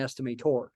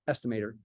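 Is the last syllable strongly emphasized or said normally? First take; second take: emphasized; normally. First: The final syllable is stressed very strongly. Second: The final syllable carries no special emphasis. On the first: "I won't usually emphasize the tor that extremely" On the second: "Just say estimator"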